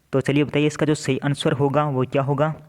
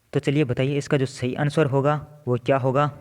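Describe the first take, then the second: Both takes have the same delivery.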